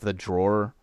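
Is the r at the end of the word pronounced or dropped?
pronounced. The final r sound is pronounced. "instead of the drawer"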